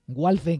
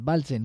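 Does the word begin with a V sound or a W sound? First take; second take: W sound; V sound. First: The word begins with a W sound. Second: The word begins with a V sound. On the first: This is how some people would say it. The speaker calls it wrong. "que dirían algunos" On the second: This is how it is said in German. The speaker calls it right. "en alemán la W se pronuncia como una V normal"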